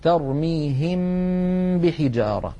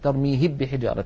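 First: The m is hidden with a long nasal hum. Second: The m merges fully into the following b. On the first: The speaker calls it right. "بغنة طويلة، هكذا" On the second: The speaker calls it wrong. "هذا هو الإدغام"

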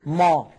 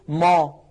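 Both takes have the same delivery.

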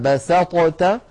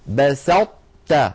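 First: The ṭ is pronounced fully and separately. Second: The emphatic ṭ merges partly into the t. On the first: The speaker calls it wrong. "فلا نحن أظهرناها فقلنا بسطت" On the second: The speaker calls it right. "أطبقنا اللسان على طاء من غير قلقلة، تاء فتحنا على تاء"

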